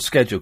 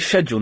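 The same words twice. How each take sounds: First: It is said with an American accent. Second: It is said with a British accent.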